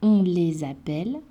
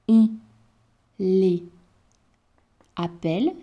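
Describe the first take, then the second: First: A z sound links les to appelle. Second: No z sound links les to appelle. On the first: "Si je la fais, cela donne" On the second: "Si je ne fais pas la liaison"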